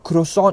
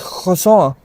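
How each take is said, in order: First: It is said with an English pronunciation. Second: It is said with a French pronunciation. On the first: The speaker calls it wrong. "It's not croissant" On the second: The speaker calls it right. "French people have a problem. ... it's croissant"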